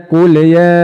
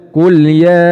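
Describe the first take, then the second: The two takes are said the same way.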